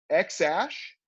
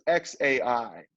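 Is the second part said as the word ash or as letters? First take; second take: ash; letters. First: The second part sounds like the word ash. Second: The second part is spelled out as two letters. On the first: "the A E is actually pronounced Ash" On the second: "like artificial intelligence, A I"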